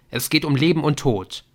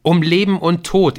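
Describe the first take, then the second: First: Raised, pressing phone plea; earnest and pressing; urgent plea. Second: Leben and Tod hammered home, high and loud; emphatic, high-pitched Leben und Tod; insistent repeat. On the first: Nick pleads urgently by phone. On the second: Repeats it insistently when questioned. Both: A narrator's reading.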